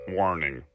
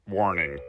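No difference in how they are said.

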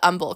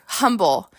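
First: The word begins without an H sound. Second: The word begins with an H sound.

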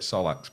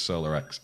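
First: The name is said as two syllables, so-lax. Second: The name is said as solar plus letter X. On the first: The speaker calls it wrong. "I was saying it wrong to start with" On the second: The speaker calls it right. "apparently it's Solar X"

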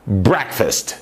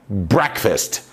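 No difference in how they are said.

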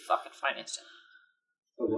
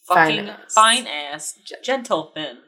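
First: The words are run together quickly and unclearly. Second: Each word is spoken slowly and clearly separated.

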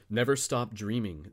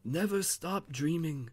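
First: It is said in the reader's ordinary voice. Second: It is said in a put-on old man's voice. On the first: The speaker calls it wrong. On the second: The speaker calls it right.

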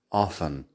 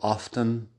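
First: The T sound in the middle is silent. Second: The T sound in the middle is pronounced. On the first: "la mayoría de las personas no pronuncian la T ahí, así que tienes often" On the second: "hay ciertas personas que sí pronuncian la T en often, pero por lo general no. Puedes escucharlo como often"

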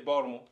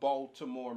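First: It is said in a local Baltimore accent. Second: It is said in a neutral accent.

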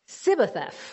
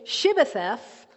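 First: The word begins with a plain s sound. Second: The word begins with an sh sound. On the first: The speaker belongs to a group with a different dialect. "they couldn't say the H" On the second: The speaker belongs to the group that can say it.

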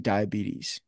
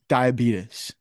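First: The word is said with its usual modern pronunciation. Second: The word is said with an older-generation pronunciation. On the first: This is how most people say it. "they don't say diabetes" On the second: This is how elderly people say it. "Do you know what they say?"

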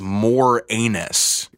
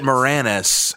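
First: The name sounds like the words 'more anus'. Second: The name does not sound like 'more anus'. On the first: This is the way the actor avoids saying his name. The speaker calls it wrong. "he's pronouncing his last name not as" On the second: This is how the actor says his own name. The speaker calls it right. "I've always said it Moranis"

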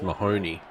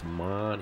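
First: The name is said the American way. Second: The name is said the Australian way. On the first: "if you used his name in America, it would be pronounced Mahoney" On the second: "But in Australia, it's Marnie"

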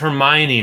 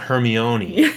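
First: The name is said the usual English way. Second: The name is said with an Italian-sounding pronunciation. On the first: The speaker calls it right. "it's Hermione" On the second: The speaker calls it wrong. "not Hermione. ... She's not Italian"

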